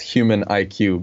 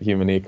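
First: The ending is spoken as two separate letters. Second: The ending is blended into one syllable. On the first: This is how the name is written. "it's human IQ" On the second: This is how the company says its name. "but we say it Humanic"

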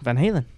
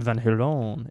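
First: It is said in a plain English accent. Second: It is said in a French accent.

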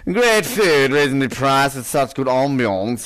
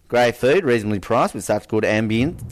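First: It is said in a put-on Polish accent. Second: It is said in the speaker's normal accent. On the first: The speaker calls it right. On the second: The speaker calls it wrong.

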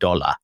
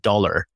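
First: The word is said with an Australian accent. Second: The word is said with an American accent. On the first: This is how the speaker said it to fit in. "I said dollar" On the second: This is how the speaker said it before adapting. "the first thing I removed from my language when I came from America was I no longer said dollar"

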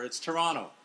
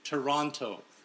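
First: The second T is silent. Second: The second T is clearly pronounced. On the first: This is how locals north of the border say it. The speaker calls it right. "A silent T" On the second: This is how Americans say it. The speaker calls it wrong. "You and a bunch of American friends of mine pronounce that second T"

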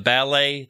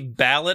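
First: The word ends with an open ay vowel. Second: The word ends with a hard T sound. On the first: This is the French way of saying it. "They will never say EA" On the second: This is how people in the United Kingdom say it. "They say ballot for the ballet"

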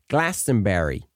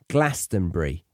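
First: It is said in a North American accent. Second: It is said in a British accent. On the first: The speaker calls it wrong. "I heard a few of the North American singers saying Glastonbury" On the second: The speaker calls it right. "the pronunciation is how I've been saying it"

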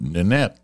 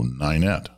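First: The first vowel is not like 'night'. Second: The first vowel sounds like 'night'. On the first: The speaker calls it wrong. "I called it Nanette" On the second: The speaker calls it right. "the I is pronounced like night. So Ninette"

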